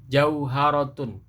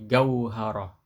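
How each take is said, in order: First: The word starts with a J sound. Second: The word starts with a hard G sound. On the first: This is the Standard Arabic form. "jauharatun ini bahasa Fusha" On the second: This is the Egyptian colloquial form. "kalau bahasa Mesir Amiyahnya jadi gauharah"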